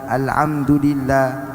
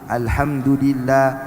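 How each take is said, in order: No difference in how they are said.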